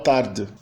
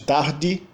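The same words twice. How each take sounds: First: It is said with a European Portuguese accent. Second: It is said with a northeastern Brazilian accent.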